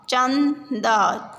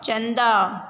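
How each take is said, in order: First: चंदा drawn out very slowly, syllable by syllable; slow syllable reading. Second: Said in the usual way. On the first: Shown as a demonstration. Teacher sounds out चंदा for the class, very slowly. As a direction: stretch out चंदा so children hear each part. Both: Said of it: "शब्दों को पढ़ेंगे".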